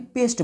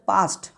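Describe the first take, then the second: First: The vowel is a mid 'eh' sound. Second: The vowel is an open 'ah' sound. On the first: The speaker calls it wrong. "ना कि पेस्ट बोलेंगे" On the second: The speaker calls it right. "ए का उच्चारण तब आ हो जाएगा"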